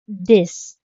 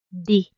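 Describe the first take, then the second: First: The word ends with an audible final consonant. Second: The word ends on the vowel, consonant dropped. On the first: This is the form learners are first taught. "natutunan natin yung pagsabi sa ten as this" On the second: This is how locals often say it. "yung X niya, nawawala na rin pag binibigkas ng mga locals"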